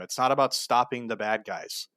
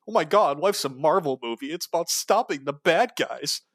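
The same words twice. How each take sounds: First: Said in the usual way. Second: High, gushing mock voice; high, breathless "stopping the bad guys"; mocking naive believer. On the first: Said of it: "mocks the same phrase". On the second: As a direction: play a starry-eyed fan of the war.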